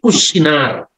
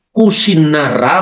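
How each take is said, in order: First: The word ends without a final a sound. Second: The word ends with a final a sound.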